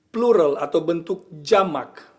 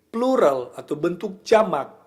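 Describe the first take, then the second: The two takes are said the same way.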